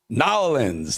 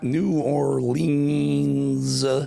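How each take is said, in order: First: The name is squeezed into two short syllables. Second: The name is said in full, every syllable. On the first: The speaker calls it right. "Nolans, There you go" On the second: The speaker calls it wrong. "not New Orleans"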